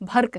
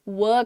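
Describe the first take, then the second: First: The word begins with a 'bh' sound. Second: The word begins with a 'v' sound. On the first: The speaker calls it wrong. "भर्क नहीं है वो" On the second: The speaker calls it right. "वर्क है वो"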